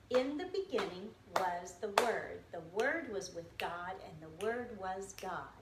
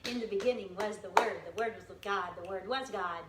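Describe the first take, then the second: First: The verse is said at a slow pace. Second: The verse is said at a fast pace.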